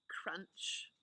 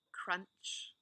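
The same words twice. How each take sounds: The two takes are said the same way.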